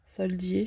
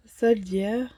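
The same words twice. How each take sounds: First: "Soldier" said softly as French sol-dee-ay; unsure second attempt. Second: "Soldier" said French-style as sol-dyer; tentative English pronunciation. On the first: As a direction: try "Soldier" lower, ending in an open "ay". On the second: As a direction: try "Soldier" with a French-accented sol-dyair. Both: Real, not acted. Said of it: "je sais pas trop comment on dit".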